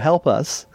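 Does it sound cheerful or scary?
cheerful. It sounds cheerful and fun.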